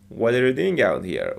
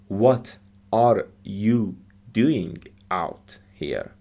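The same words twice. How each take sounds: First: The words run together quickly. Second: Each word is said separately and clearly. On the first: The speaker calls it right. "they put words together" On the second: The speaker calls it wrong. "it's not"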